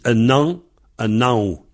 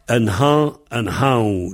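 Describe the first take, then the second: First: "un an, un nao" with no H, the N linked on; sans H. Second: "Un han, un hao" with a breathed H; H prononcé. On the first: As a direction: drop the H and run N into the vowel of "un an". (« un an, un nao » sans souffler le H) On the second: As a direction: blow the H after "Un" in "Un han". (« Un han, un hao » avec le H soufflé) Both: Shown as a demonstration. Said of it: "Ceux qui ne prononcent pas le H".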